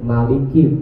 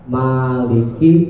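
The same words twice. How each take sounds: First: The first vowel is said short. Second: The first vowel is held long. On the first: "ada yang bacanya pendek" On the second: "Ada yang bacanya panjang"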